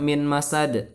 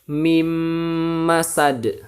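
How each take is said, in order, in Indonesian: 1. Kata pertama berakhir dengan bunyi n biasa. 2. Bunyi n di akhir kata pertama menyatu menjadi m. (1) "Awas jangan dibaca min masad" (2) "tapi harus dibaca mim masad"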